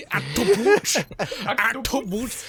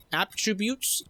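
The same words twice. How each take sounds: First: Attributes slurred like astroboots; garbled mispronunciation. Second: Said in the usual way. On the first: Real, not acted. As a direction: trip over attributes, mangling it. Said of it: "you accidentally pronounced it correctly".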